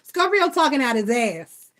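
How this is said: Words are dropped in a Black vernacular style.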